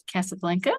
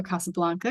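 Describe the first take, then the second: First: Casablanca with short A's as in "cat"; flat-A pronunciation. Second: Casablanca with open "ah" vowels; broad-A pronunciation. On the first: Host naming the film to read, Casablanca with cat-like A's. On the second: Host offering the other version, Casablanca with broad ah sounds. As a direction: say Casablanca as "Cah-sah-blahn-ka". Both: Shown as a demonstration. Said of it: "however you wanna pronounce it".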